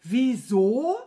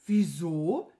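First: Loud, incredulous rising echo; outraged echo. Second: Low start, rising innocent query; innocent question. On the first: Wizard incredulous at his stupid servant, outraged. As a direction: throw the question back, exploding. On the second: Servant playing dumb to the angry wizard, innocently asking. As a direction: ask it as if clueless. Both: A narrator's reading.

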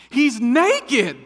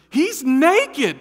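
First: Shrill high scream of shock. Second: Loud high repeat, pressing it home; loud insistence. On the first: Wife spotting a naked man, screaming. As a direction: scream it out in alarm. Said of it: "I hear my wife scream out". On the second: Wife repeating the warning to husband, loud and high. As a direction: insist again, louder. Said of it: "And she goes". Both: Retold or imitated.

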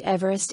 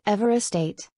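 First: Everest with a long EE at the start; pronounced EEV-rest. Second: Everestate as the common EVER-est, short E first; wrong pronunciation, EVER-est. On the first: Narrator giving the name's correct pronunciation, Everest said as EEV-rest. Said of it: "is pronounced Everest, not Everestate". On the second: Narrator showing how not to say the name, Everestate with short opening E. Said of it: "not Everestate, as it is named after". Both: Shown as a demonstration.

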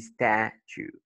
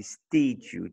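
First: "statue" as STAT-chue with a short A, slowly; correct short vowel. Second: "statue" mispronounced STAY-tue with a long A; wrong long vowel. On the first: Teacher giving learners the right form, short A in "statue". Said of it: "tu dis statue". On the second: Teacher showing what not to say, long A in "statue". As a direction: say "statue" with the A as in "state". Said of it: "t'as pas dit statue". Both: Shown as a demonstration.

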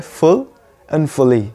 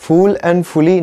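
First: "full" and "fully" with a short schwa, ful and fuli; correct full and fully. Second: Full and fully with a long oo, said the wrong way. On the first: Teacher giving the correct pronunciation, short vowel. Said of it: "इनका correct उच्चारण होता है". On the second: Teacher demonstrating the common wrong pronunciation, slow long oo. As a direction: say "full" and "fully" like the flower word phool. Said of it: "तो उनका उच्चारण ... नहीं होता है". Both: Shown as a demonstration.

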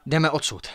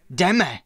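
First: Firm, slightly raised suggestion; first, restrained push to go; mild urging. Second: Louder, higher insistent command; sharp raised call to go; mounting pressure. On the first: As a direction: urge the group to leave, still controlled. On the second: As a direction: press them urgently to move. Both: A narrator's reading. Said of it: "Zesiloval svůj nátlak".

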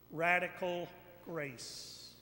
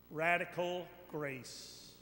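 No difference in how they are said.

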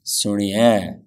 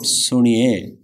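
First: Suniye with a short i and an air sound. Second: Suniye slowly, the ni stretched long; drawn-out E. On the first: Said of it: "It's got a air sound to it". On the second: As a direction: drag the e in suniye as the wrong version. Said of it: "Not suniye". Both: Shown as a demonstration.

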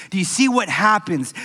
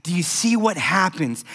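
Both takes have the same delivery.

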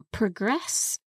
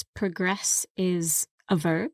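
First: Progress stressed on the first syllable, PROgress; noun stress. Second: Progress with stress on the second syllable, proGRESS; verb stress. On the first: Teacher showing progress stressed as a noun. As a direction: hit PRO in progress. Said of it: "it could also be a noun". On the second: Teacher showing progress stressed as a verb. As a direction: lean on GRESS in progress. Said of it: "In this case". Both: Shown as a demonstration.

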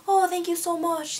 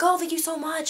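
First: High-pitched, put-on Irish accent; imitated Irish accent. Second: High-pitched imitation of a grateful girl; imitated thanks. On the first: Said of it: "like, in the accent". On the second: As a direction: thank them in a lifted, put-on voice. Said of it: "she thanked me".

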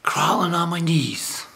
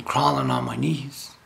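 First: Drawn out slowly, a solemn hook; slow it down to hook the listeners; slow dramatic opener. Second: Said in the usual way. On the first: Shown as a demonstration. Preacher opening his talk, slow and solemn. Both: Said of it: "why I'm saying crawling on my knees".

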